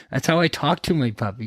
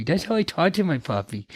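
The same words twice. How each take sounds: First: A touch of puppy-talk; lightly baby-talk the words. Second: High, cutesy puppy voice; baby talk. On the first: Owner showing how he talks to his puppy, light baby talk. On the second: Owner showing how he talks to his puppy, full baby talk. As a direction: coo it high like talking to a puppy. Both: Shown as a demonstration. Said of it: "constantly baby talking with this little muffin".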